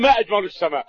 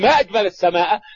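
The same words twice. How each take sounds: First: It is said with the endings of a statement. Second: It is said with the endings of an exclamation. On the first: It states or asks what is most beautiful. "إذا كنت تريد الإخبار تقولي" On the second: It expresses wonder at the sky's beauty. "تريد التعجب تقولي"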